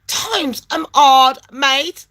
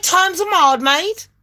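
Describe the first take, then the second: First: Drawn-out, word-by-word repeat; slow right down on each word; emphatic slow repeat. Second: High-pitched retold protest; pleading retort. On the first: Retold or imitated. Caller repeats hardship to phone agent, slow and emphatic. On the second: Caller pleads hardship to phone agent, high-pitched protest. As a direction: say it high, at normal pace. Retold plea, first take.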